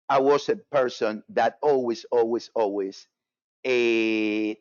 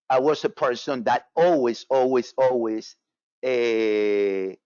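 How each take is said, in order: Both takes have the same delivery.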